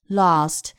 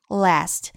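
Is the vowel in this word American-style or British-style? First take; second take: British; American. First: The vowel is a long, open back 'ah'. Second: The vowel is a flat front 'a'. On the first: "如果是英式发音读的就是lost" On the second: "如果是美式呢，a 在其中发4 号元音a"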